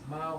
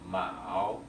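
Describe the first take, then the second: First: The syllable is said with the first tone. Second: The syllable is said with the third tone. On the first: It means cat. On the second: It means rivet.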